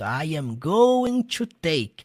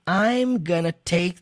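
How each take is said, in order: First: Every word is said fully and separately. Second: The words are contracted, with 'gonna' used.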